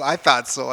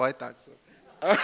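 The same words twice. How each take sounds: First: Said in the usual way. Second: Laughing. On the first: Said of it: "jokes to audience, then laughs". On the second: Real, not acted. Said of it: "repeats it, laughing".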